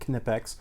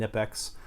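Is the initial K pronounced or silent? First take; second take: pronounced; silent. First: The initial K is clearly pronounced. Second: The initial K is silent. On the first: "You actually really pronounce that K" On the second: "Most people just call them"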